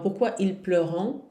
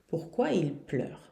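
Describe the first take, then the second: First: The final ending of the verb is sounded. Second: The final ending of the verb is silent. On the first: The speaker calls it wrong. "Não, não, não" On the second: The speaker calls it right. "esse ent não se pronuncia nunca"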